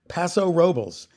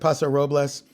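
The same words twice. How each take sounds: First: The name is said with English-style vowels and sounds. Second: The name is said with Spanish-style vowels and sounds. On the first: This is how the locals say it. The speaker calls it right. "They pronounce it Paso Robles" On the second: This follows the original Spanish name. The speaker calls it wrong. "they don't pronounce it Paso Robles"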